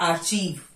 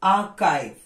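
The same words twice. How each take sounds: First: The first syllable ends in a ch sound. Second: The first syllable ends in a k sound. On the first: The speaker calls it wrong. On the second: The speaker calls it right.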